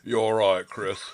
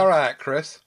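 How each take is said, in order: First: It is said in a deep Manchester accent. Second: It is said in the speaker's normal voice.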